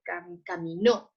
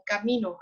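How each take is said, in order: First: "caminó" said slowly, stressing NÓ; cami-NÓ, land firmly on the last syllable; stress on final Ó. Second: "camino" as a noun, stressed on MI; ca-MI-no, stress the middle syllable. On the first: Teacher showing the past tense form, slow final stress on "caminó". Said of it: "entonces sí lleva acento". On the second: Teacher contrasting noun with past-tense verb, stress on MI in "camino". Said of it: "me estoy refiriendo a un camino". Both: Shown as a demonstration.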